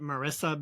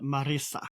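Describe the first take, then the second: First: The name is said with English sounds. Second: The name is said with Spanish sounds. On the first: "like I would just call it Marissa" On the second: "probably Spanish people would call it Marisa"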